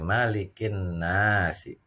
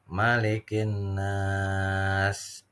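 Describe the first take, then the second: First: The phrase ends with a short final vowel. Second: The long vowel is held, ending on a consonant. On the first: "Kalau membaca di Latinnya biasanya tertulis seperti ini" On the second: "ketika bacanya waqaf, ... panjang"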